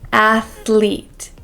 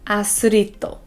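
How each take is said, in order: First: It has a th sound with the tongue out. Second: An s sound replaces the th sound. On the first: The speaker calls it right. "we want to say ath, th, athlete" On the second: The speaker calls it wrong. "replacing the th sound with the s sound"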